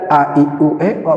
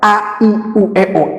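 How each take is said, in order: First: The vowels are blurred and unclearly articulated. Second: Each vowel is articulated clearly and distinctly. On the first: The speaker calls it wrong. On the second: The speaker calls it right. "itulah artikulasi"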